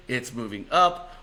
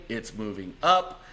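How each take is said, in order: Both takes have the same delivery.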